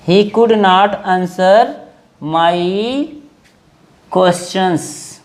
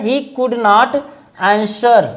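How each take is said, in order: First: Very slow, word by word; slow dictation. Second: Said in the usual way. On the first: Shown as a demonstration. Teacher dictating the sentence to students, very slowly. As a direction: spell it out slowly so students can write. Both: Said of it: "he could not answer (slow repeat)".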